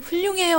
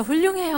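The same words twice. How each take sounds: First: High, excited compliment; hammed-up delight, pitched up; exuberant praise. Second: High, bright-pitched compliment; mock praise, pitched up; exuberant praise. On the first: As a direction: praise the wife's stew. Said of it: "하고 그 김치찌개를 드셔야 돼요". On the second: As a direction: cheer someone on. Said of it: "하고 칭찬을 하는 거예요". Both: Shown as a demonstration.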